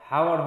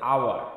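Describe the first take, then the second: First: The word starts with an h sound. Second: The word starts with a vowel sound. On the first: The speaker calls it wrong. "হাওয়ার হচ্ছে না" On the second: The speaker calls it right. "এখানে হচ্ছে আওয়ার"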